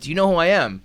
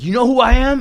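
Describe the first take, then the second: First: It is said in his normal voice. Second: It is said in a put-on Joker voice.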